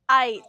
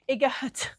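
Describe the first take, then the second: First: The g is silent, leaving a long i. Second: A hard g sound is pronounced after the i. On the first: The speaker calls it right. "When we have G H in the middle, it's quiet" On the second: The speaker calls it wrong. "we don't say igat"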